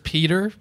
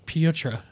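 First: The name is said with two syllables. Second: The name is said with three syllables. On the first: "I know it is Peter" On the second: "but he pronounces it Pietra"

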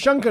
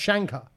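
First: The name is said with a desi pronunciation. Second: The name is said with an Australian pronunciation. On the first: The speaker calls it right. "But Shankar is not pronounced" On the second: The speaker calls it wrong. "is not pronounced Shankar"

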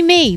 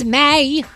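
First: The word is said with an 'ee' vowel. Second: The word is said with an 'ay' vowel. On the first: The speaker calls it wrong. "he did try to pronounce it me" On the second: The speaker calls it right. "no, no, no, it's May. Got to say it that way"

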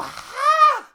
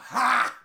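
First: The grunt is thin and high-pitched. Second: The grunt is deep and forceful.

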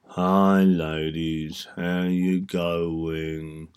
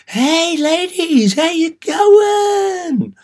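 First: It is said with low, flat energy. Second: It is said with loud, high energy.

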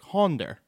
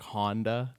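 First: It ends with an added R sound. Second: It ends plainly with no added R sound.

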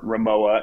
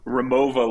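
First: The name is said the American way. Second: The name is said in a non-American way.

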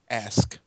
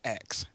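First: The word ends with an 'sk' sound. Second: The word ends with a 'ks' sound. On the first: The speaker calls it right. "I know how to enunciate" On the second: The speaker calls it wrong. "not ax"

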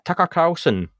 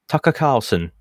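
First: It is said in an American accent. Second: It is said in an English accent.

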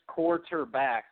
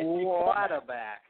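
First: The word is said short, in three syllables. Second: The word is drawn out with extra syllables. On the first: "It's just quarterback. There's three syllables" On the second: "You put like two extra syllables in there"

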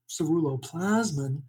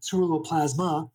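First: The word ends with a 'min' sound. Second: The word ends with a 'ma' sound. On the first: The speaker calls it right. "instead of saying ceruloplasmin" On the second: The speaker calls it wrong. "I was saying ceruloplasma, which is what everyone does"

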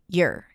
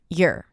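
First: The word has a weak, reduced vowel. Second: The same.

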